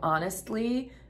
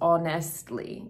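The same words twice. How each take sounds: First: It is said in a plain standard accent. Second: It is said with a noticeable foreign accent. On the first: "instead of honestly" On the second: "I also um, notice her accent a little bit in this, um, like when she says honestly"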